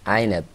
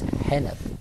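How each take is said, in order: First: It starts with a throaty ayn sound, no h. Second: It starts with a breathy h sound. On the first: The speaker calls it right. "say Ainab" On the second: The speaker calls it wrong. "he says Hanab"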